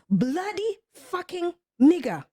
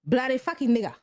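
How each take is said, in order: First: Each word is pronounced clearly and separately. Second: The words are blurred together quickly, like one word. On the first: The speaker knows what the words mean. The speaker calls it right. "do you know what you're saying?" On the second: The speaker does not know what the words mean. The speaker calls it wrong. "They couldn't pronounce it well"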